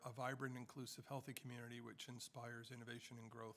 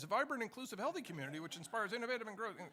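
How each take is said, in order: First: It is read in an ordinary speaking voice. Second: It is read in a booming announcer voice.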